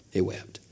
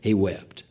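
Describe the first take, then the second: First: Repeated much softer; hushed. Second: Said in the usual way. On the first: Shown as a demonstration. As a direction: let it fall to almost nothing.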